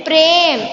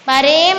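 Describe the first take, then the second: First: प्रेम as one syllable, prem; प्रेम with half-sounded र cluster; correct pronunciation. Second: प्रेम split as pa-rem; प्रेम in two syllables, pa-rem; wrong pronunciation. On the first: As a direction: join प and र in प्रेम. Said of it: "रा आधा उच्चारण". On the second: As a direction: misread प्रेम with a full vowel after प. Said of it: "नहीं है". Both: Shown as a demonstration.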